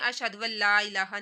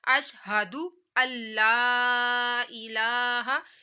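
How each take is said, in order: First: A 'w' sound comes before 'alla'. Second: 'Alla' starts with a vowel, no 'w' sound. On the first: The speaker calls it wrong. "नहीं ऐसे नहीं पढ़ा जाएगा" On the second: The speaker calls it right. "कैसे पढ़ा जाएगा?"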